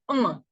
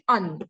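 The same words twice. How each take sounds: First: The word is said with its French pronunciation. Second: The word is read the way it is spelled. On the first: The speaker calls it right. "It's un" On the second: The speaker calls it wrong. "ideally, you should say un, but it's not un in French"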